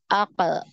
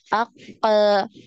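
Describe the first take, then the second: First: The echo vowel is short and natural. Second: The echo vowel is drawn out long. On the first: The speaker calls it right. "Harus alami kemudian langsung ngalir" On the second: The speaker calls it wrong. "ini dipanjang-panjangkan"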